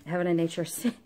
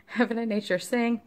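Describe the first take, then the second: First: Said in the usual way. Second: Laughing. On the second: Real, not acted. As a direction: repeat the title with a laugh in the voice, higher.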